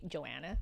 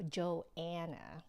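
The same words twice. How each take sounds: First: The name is slurred together quickly. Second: The name is overpronounced with an extra final A. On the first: This is how people usually say it casually. "it's very kind of like sort of just slurred together" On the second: It helps people hear the name in a loud place. "I go Joanna. If you overpronounce it a little bit"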